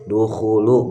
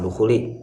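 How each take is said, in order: First: The word ends with an 'u' vowel. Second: The word ends with an 'i' vowel. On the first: The speaker calls it right. "Harusnya dibacanya dukhulu" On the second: The speaker calls it wrong. "bukan dukhuli"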